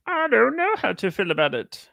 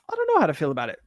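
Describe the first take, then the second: First: High puppet frog voice, lightly comic; sing-song Kermit impression. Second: Said in the usual way. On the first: Shown as a demonstration. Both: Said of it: "That was my Kermit the Frog voice".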